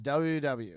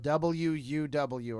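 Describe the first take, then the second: First: The letters are slurred and run together. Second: Each letter is said fully and distinctly.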